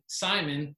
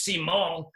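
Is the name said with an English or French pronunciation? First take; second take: English; French. First: The name is said with English pronunciation. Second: The name is said with French pronunciation.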